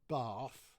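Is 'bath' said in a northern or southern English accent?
southern. It is said in a southern English accent.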